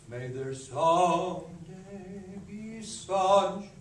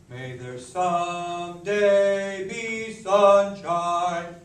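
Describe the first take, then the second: First: The second syllables are said very softly. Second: The second syllables are said with accents. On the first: The speaker calls it right. "Make those second syllables so soft" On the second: The speaker calls it wrong. "I don't love those accents"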